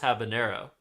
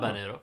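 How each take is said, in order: First: The word begins with an h sound. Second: The word begins with a vowel, no h. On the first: "so it's just habanero" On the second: "if you're not pronouncing the H"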